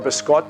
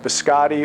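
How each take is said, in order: First: It is said with a New York Italian pronunciation. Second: It is said with a standard American pronunciation.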